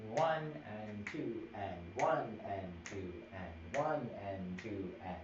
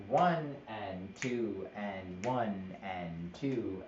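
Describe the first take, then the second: First: Slow count, one and two leaned on; counting with strong beats. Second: Counting slowly, x0.3 pace; slow counting demo. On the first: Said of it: "So this is stronger than these guys". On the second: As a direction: count it out slowly, each beat even. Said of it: "If I have". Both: Shown as a demonstration.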